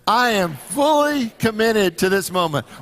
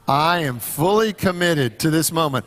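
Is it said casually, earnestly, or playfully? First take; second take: earnestly; casually. First: It is said earnestly, with real conviction. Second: It is said casually, without much conviction.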